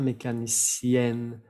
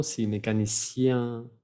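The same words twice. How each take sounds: First: Mécanicienne with a clear N at the end; N sounded. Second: Mécanicien ending nasal, no N. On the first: Teacher giving the feminine ending with the doubled N. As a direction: land hard on the final N of mécanicienne. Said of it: "se dobla la N". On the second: Teacher giving the masculine ending. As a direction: end mécanicien on a nasal vowel. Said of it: "En masculino". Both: Shown as a demonstration.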